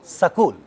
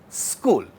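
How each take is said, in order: First: A vowel separates the s and k sounds. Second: The s and k sounds join without a vowel. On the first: The speaker calls it wrong. "if we want to reduce the cluster, we would end up saying as Sakul" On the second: The speaker calls it right. "where sa is being spoken, being pronounced without that a"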